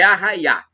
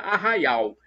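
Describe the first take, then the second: First: The word ends on an open 'a' sound. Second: The word ends with an audible 'l' sound. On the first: This is the rural countryside dialect form. "como nós estamos falando caipirês, é Arraiá" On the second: This is the standard form of the word. "Seria arraial"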